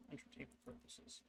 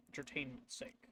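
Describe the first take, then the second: First: Hushed whisper aside. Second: Said in the usual way. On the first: Real, not acted. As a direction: whisper it to yourself. Quiet aside correcting himself.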